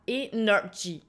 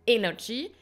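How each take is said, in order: First: The stress is on a later syllable. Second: The stress is on the first syllable. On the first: The speaker calls it wrong. "et pas energy" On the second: The speaker calls it right. "vous allez accentuer energy"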